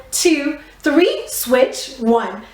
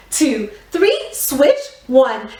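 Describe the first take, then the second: No difference in how they are said.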